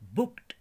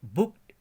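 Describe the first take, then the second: First: The word ends with a t sound. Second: The same.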